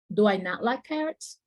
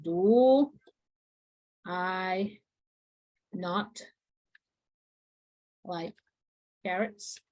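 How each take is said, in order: First: Said in the usual way. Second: Slow, each word cut off by pauses; word by word dictation. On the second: Shown as a demonstration. Teacher dictating the question word by word to the class. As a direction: place every word separately as you write.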